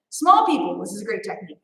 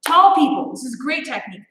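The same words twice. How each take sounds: First: Dropped low and soft for the small folks; small voice for small people. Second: Said in the usual way. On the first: Shown as a demonstration. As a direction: shrink the voice down low and quiet.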